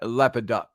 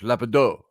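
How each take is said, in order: First: The name ends with a clear t sound. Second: The name ends without a t, French-style. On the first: The speaker calls it right. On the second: The speaker calls it wrong.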